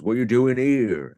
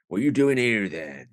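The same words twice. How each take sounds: First: Louder, gruff-ish mock station guard challenge; hammed-up guard demanding what you're doing; a hint of a suspicious station guard, louder; station guard impression. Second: Put-on country station guard, suspicious; hammed-up rural guard questioning passengers. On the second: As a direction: play the grumpy old railway guard. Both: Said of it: "this is a very good impression".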